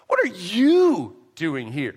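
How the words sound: The word "you" carries the main stress. It questions this particular person being there. "Or you can look at the word you"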